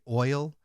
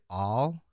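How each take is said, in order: First: It is said in a northern US accent. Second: It is said in a southern US accent. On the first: "up here in the north part, northern part of the United States, we say oil" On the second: "in the southern parts of the United States, they'll say all"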